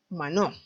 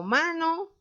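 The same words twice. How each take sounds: First: "Mano" wrongly stressed ma-NÓ, pitch dropping; stress on last syllable. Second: "Mano" stressed MA-no, high and questioning; stress on first syllable. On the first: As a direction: shift the beat of "Mano" onto the final o. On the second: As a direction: hit Ma in "Mano", pitched well up. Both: Shown as a demonstration. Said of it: "mano es la sílaba tónica".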